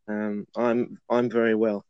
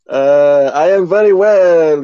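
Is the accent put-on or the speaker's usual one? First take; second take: usual; put-on. First: It is said in the speaker's usual accent. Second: It is said in a put-on accent. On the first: "I'm just going to talk in my usual accent" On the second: "can't keep that accent up"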